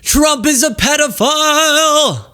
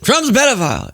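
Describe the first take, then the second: First: The word 'is' is said fully and separately. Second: The word 'is' is contracted onto 'Trump'. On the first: "It was" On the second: "It wasn't"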